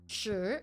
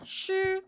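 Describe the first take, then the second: First: The pitch rises upward. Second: The pitch stays level and flat. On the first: "The second tone, shi, going upwards" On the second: "using the first tone, which is just a straight line"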